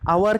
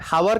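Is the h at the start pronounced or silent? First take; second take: silent; pronounced. First: The word starts with a vowel, no h. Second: The word starts with an audible h sound. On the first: The speaker calls it right. "आवर कहते हैं" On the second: The speaker calls it wrong. "हावर तो कोई नहीं कहता"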